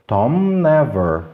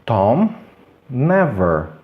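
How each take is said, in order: First: "Tom never" slowly in one run, M then N; sons quase unidos. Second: Palavras separadas. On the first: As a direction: hold the M of "Tom" straight into "never". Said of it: "unam totalmente". ("Tom never" lento, sem pausa) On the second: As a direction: pause between "Tom" and "never". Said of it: "não consegue conectar esses dois sons". (pausa entre "Tom" e "never") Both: Shown as a demonstration.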